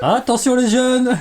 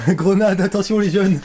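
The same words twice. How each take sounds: First: High, loud, slow warning; warning call. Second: High, loud, laughing call; laughing warning. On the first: Warning friends about the catch. (avertissement lent et fort) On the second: Repeated warning while laughing. (avertissement en riant) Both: Acted.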